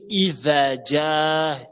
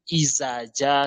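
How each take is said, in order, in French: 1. La consonne du premier mot est un son 'th'. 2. La consonne du premier mot est un son 'z'. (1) "Au lieu de dire Izaja" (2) "vous entendez dire Izaja, ce n'est pas ça"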